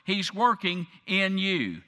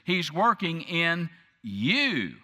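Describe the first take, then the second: First: The word you carries no special emphasis. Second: The word you is strongly emphasized.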